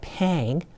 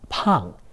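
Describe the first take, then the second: First: The vowel is like the 'a' in cat. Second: The vowel is an open 'ah' sound. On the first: The speaker calls it wrong. "is not pang" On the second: The speaker calls it right. "pronounced pang with an a"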